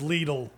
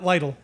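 First: The first vowel is a long EE sound. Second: The first vowel is a short I sound. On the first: The speaker calls it right. "The correct pronunciation of Lidl is Lidl" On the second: The speaker calls it wrong. "It's not Lidl"

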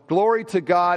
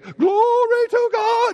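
First: It is said flatly, without much energy. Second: It is said loudly, with lots of energy. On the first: The speaker calls it wrong. "it's not the same to me if they're going" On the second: The speaker calls it right. "that there would be some oomph behind it"

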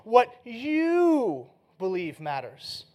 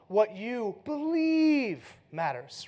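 First: The stress is on the word you. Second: The stress is on the word believe.

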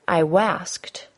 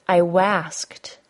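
The two takes are said the same way.

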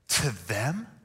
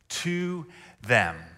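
First: It is said with sarcastic, surprised girl inflection. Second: It is said plainly, without sarcasm.

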